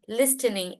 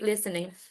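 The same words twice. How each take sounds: First: The T sound in the middle is pronounced. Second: The T sound in the middle is silent. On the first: The speaker calls it wrong. "if we are making the sound or t listening listening is not it doesn't make sense" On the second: The speaker calls it right. "the people also normally speak listening"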